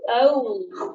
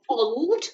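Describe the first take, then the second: First: The vowel is the long O of no. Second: The vowel is the short O of hot. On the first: The speaker calls it right. "Oh, like in no" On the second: The speaker calls it wrong. "We wouldn't say old"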